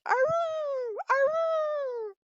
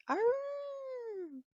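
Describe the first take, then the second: First: Loud high howl calling back; answering wolf howl. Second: High howl, softer, as if from far off; a wolf answering from across the forest; distant wolf howl. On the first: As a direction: howl back hard so the pack hears you. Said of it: "And so he answered". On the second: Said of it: "off in the distance, he heard". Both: A narrator's reading.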